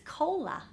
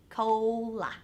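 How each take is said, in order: First: Said in the usual way. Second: "Cola" drawn out, long O gliding into the L; slow long-O demonstration. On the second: Shown as a demonstration. Teacher repeating an example for learners, slowly sounded out. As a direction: stretch "Cola" into two slow, separate syllables.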